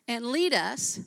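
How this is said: A clear pause follows 'lead us'. It claims that God is leading you. The speaker calls it right. "if you put a pause between lead us"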